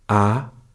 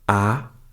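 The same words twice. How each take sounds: First: The pitch rises upward. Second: The pitch rises upward.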